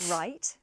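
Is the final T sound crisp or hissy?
hissy. The final T is a hissing fricative. "a Scouser would say"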